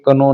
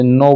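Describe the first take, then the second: First: कनो said with the k sounded before n; deliberate mispronunciation कनो; wrong k sounded. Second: नो said with the k silent. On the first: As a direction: say कनो with an extra k at the start. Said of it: "कनो नहीं बोलना है". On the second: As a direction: say नो with no k sound at the start. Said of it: "इसे नो बोलेंगे". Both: Shown as a demonstration.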